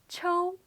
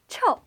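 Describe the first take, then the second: First: The syllable is said with a high level pitch. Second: The syllable is said with a falling pitch. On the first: It means slap. "pronounced with the first tone, which is a high and flat tone" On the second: It means stinky. "the fourth tone, or the falling tone"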